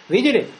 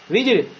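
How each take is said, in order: The two takes are said the same way.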